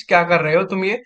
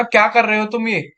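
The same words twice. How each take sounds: First: Affectionate demo. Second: Angry demo. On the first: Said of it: "किसी से प्यार से बोलूंगा तो वही चीज". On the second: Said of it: "मैं उससे बहुत गुस्से में बोलूंगा". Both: Shown as a demonstration.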